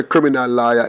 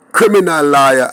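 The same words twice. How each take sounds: First: Said in the usual way. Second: Criminal leaned on, its l held long; stress on criminal. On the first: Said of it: "when I say". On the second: Shown as a demonstration. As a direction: land hard on criminal before lawyer. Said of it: "emphasis on the word criminal".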